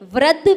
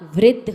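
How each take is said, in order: First: The r syllable sounds like plain 'ra'. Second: The r syllable sounds like 'ri'. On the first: The speaker calls it wrong. "नहीं होता" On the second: The speaker calls it right. "होता है"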